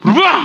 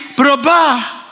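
First: Teasing answer with a quick lift at the end; mock teasing. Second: Drawn-out answer falling at the end; angling for a favour. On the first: Wife answers the pastor about her husband, mockingly. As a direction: toss it out as if making fun. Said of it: "Kalau teriaknya sambil kayak ngeledek". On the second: Acted. Wife hoping for a new bag, agreeing with an angle. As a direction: say it as if buttering someone up. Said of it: "Atau gini".

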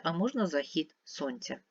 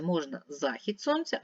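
First: Захід stressed at the end, за-ХІД; second variant stress. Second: Захід stressed at the start, ЗА-хід; first variant stress. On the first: Teacher showing a word with two stresses: за-ХІД. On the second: Teacher showing a word with two stresses: ЗА-хід. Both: Shown as a demonstration. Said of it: "Це слово має два наголоси".

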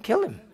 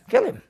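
First: Said in the usual way. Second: Kill him jumped up high and punched; emphatic exclaim. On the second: Real, not acted. Preacher answers his own question, high emphatic exclaim. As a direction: fire the answer out high and firm. Answer repeated, much higher.

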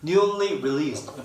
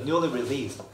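First: Newly released drawn out very slowly; slow pronunciation demo. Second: Newly released run together as nuni rilist; natural linked pronunciation. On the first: Teacher slows Newly released for students, very slow. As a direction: stretch out Newly released word by word. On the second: Teacher gives the natural linked Newly released, run together. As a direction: blur Newly released the way natives say it. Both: Shown as a demonstration. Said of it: "발음 좀 안 들리죠?".

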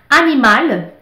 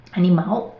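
First: "Animal" in French, ending on a clear L; "Animal" with a French L and falling close. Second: "animal" in Brazilian Portuguese, the final L spoken as a W. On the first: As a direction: say "Animal" the French way, final L sounded. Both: Shown as a demonstration.

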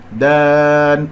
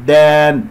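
First: "دان" held long and stopped on a still n; correct stop. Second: "دان" said as a mistaken form, briefer than the held one; wrong ending. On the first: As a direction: sustain "دان", closing on a vowelless noon. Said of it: "أقف على نون ساكنة". (وقف على نون ساكنة في "دان") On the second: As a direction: show the faulty "دان" as a mistake. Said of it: "وليس، ولا أقول دان". (نطق خاطئ لكلمة "دان") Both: Shown as a demonstration.

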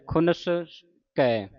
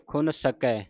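First: ਖੁਨਸ ਕੈ with the break after ਖੁਨਸ; ਖੁਨਸ as one word, then ਕੈ; correct split. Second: ਖੁਨ ਸਕੈ split after ਖੁਨ; wrong break: ਖੁਨ, then ਸਕੈ. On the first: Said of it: "ਸੰਪਰਦਾ ਦਾ ਉਚਾਰਨ". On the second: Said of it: "ਕਈ ਸੰਗਤ ਜੀ ਪਾਠ ਪੜ੍ਹਦੇ ਨੇ". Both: Shown as a demonstration.

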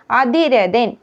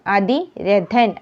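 First: അതിരഥൻ in one quicker run; word as first offered. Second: അതിരഥൻ slow, broken after അതി; corrected consonant. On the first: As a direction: present അതിരഥൻ before correcting it. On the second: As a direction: draw out അതിരഥൻ with a careful ഥ. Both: Shown as a demonstration. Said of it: "തായിലെ വ്യത്യാസമാണ്".

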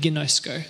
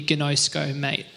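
First: Said in the usual way. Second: Lightly put-on Australian accent. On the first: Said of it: "that's how you say it". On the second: Shown as a demonstration. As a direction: say GINOSKO with a hint of Aussie twang. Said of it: "In Australian, it would be".

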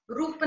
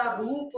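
First: रूप said "rup" with short u; wrong short vowel. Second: Said in the usual way. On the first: Shown as a demonstration. Teacher correcting a mistake, रूप with short u. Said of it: "नहीं होता". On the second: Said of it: "होता है".

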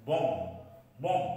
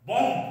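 First: বম্ব with a silent final B; correct pronunciation. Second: বম্ব said the wrong way, higher and louder; বম্ব with the B sounded; বম্ব incorrectly; wrong pronunciation. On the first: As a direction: say বম্ব ending on M. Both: Shown as a demonstration.

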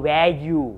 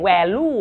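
First: "value" drawn out as "wae-yu", no L; Y-sound pronunciation. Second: "value" said with an L, "wae-lu"; wrong L pronunciation. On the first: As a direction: say "value" slowly with a Y in the second syllable. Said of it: "ยอยักษ์ ยอหญิงครับ". (ออกเสียง value ช้าๆ เป็น "แวยู" ด้วยเสียง ย ยักษ์) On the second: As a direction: say "value" with an L sound in the second syllable. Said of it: "ไม่ออกเสียง value นะฮะ". (ออกเสียง value เป็น "แวลู่" ด้วยเสียง ล ลิง) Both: Shown as a demonstration.

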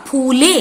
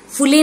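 First: फूले with a long "oo", like "phoo-le"; corrected फूले, बड़ा ऊ held; correct long vowel. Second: फूले with a short "u", like "phu-le"; mispronounced फूले, छोटा उ in place of बड़ा ऊ; wrong short vowel. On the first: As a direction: stretch the ऊ in फूले. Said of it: "बड़ा ऊ डाल दिया है". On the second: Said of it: "फूले नहीं होता". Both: Shown as a demonstration.

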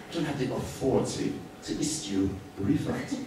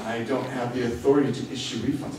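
First: Mock officious clerk, stressing authority; stiff official tone. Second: Said in the usual way. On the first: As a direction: imitate a flustered clerk hiding behind the rules. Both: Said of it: "But he said it in that way".

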